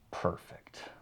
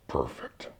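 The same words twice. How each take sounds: First: It sounds harsh and aggressive. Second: It sounds soft and friendly.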